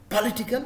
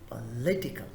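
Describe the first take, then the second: First: The stress is not on the second syllable. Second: The stress is on the second syllable. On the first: The speaker calls it wrong. "Wrong is political" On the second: The speaker calls it right. "The stress is on the second syllable"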